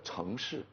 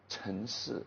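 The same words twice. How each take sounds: First: It is said in a standard accent, with the g. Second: It is said in a Hunan accent, without the g. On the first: "instead of a" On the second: "She would say"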